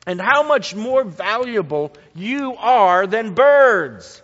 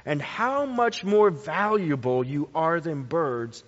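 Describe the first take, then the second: First: "much more valuable" pressed hard and loud; emphatic reading. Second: Said in the usual way. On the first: Shown as a demonstration. Preacher stressing the verse to the congregation, loud emphasis. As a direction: lean on the comparison.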